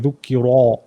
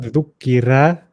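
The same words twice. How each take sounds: First: The r is said very thick, with a full mouth. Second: The r is said thin, with an empty mouth. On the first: "don't overdo it. Don't say dhukira" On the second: "it's not empty. It's not dhukira"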